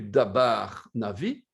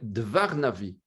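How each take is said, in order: First: The first word has two syllables with a b sound. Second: The first word has one syllable with a v sound. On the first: The speaker calls it wrong. "Ce n'est plus dabar navi" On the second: The speaker calls it right. "c'est dvar navi"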